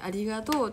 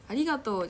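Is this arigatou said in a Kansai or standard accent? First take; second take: Kansai; standard. First: It is said with a Kansai pitch pattern. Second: It is said with a standard pitch pattern. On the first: "関西の人って…ありがとうっていうね" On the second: "ありがとうじゃなくて"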